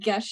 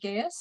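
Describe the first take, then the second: First: The word is said as 'gesh', rhyming with mesh. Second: The word is said as 'guy-us', rhyming with pious. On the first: "we're going with gesh now" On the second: "instead of Gaius"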